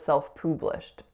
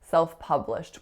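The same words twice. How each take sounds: First: The vowel in pub is an oo sound. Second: The vowel in pub is an uh sound. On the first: The speaker calls it wrong. "which I said is self-published" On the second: The speaker calls it right. "the sound should be an uh"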